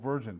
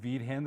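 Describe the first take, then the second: First: The surname is pronounced with English sounds. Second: The surname is pronounced with Spanish sounds. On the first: "we'll go with Virgin" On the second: "the Spanish version of it"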